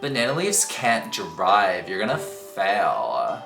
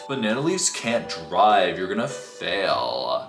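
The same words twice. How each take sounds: First: It is said in a Valley Girl voice. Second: It is said in a flat monotone.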